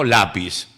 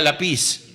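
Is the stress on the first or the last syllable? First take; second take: first; last. First: The stress falls on the first syllable. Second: The stress falls on the last syllable. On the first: The written accent forces this stress. The speaker calls it right. "le voy a poner el acento en la A" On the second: This is the natural reading without the written accent. The speaker calls it wrong. "si no, diría lápiz"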